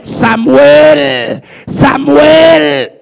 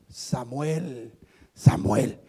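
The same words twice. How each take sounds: First: Loud, raised, drawn-out call. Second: Very low, subdued call; voice of God calling. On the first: God calls the boy in the temple, loud drawn-out calling. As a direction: shout the name as if summoning from afar. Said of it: "volvió a llamarle y le dijo". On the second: The voice speaks to Samuel once more, low solemn calling. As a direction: call the name low and unhurried. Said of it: "le habló nuevamente la voz". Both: Acted.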